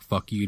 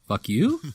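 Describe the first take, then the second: First: It is said as a falling statement. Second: It is said as a rising question.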